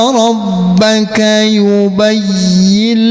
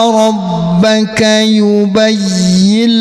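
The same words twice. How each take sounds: Both takes have the same delivery.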